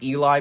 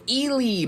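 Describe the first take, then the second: First: The name is said in a relaxed way. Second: The name is said in an intense way. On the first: "I always pronounced it Eli" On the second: "they're a little more intense with it"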